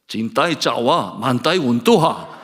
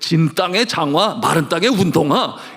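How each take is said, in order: First: The words are slurred with sounds run together. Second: The words are pronounced clearly and distinctly.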